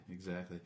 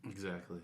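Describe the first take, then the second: No difference in how they are said.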